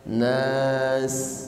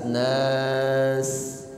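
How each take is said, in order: First: The final s sound is a clear, flowing hiss. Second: The final s sound is a clear, flowing hiss.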